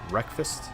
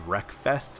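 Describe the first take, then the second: First: The second syllable is reduced, as in breakfast. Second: The second syllable is fully and carefully enunciated. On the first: The speaker calls it right. "supposed to be like breakfast" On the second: The speaker calls it wrong. "which is how I over-enunciated it"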